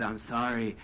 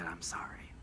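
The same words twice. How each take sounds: First: Said in the usual way. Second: Hushed, breathy whisper, voice dropped low; lower, near-silent whisper; whispered sorry. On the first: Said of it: "and he said". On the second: Retold or imitated. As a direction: breathe the apology without a smile. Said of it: "and he didn't smile".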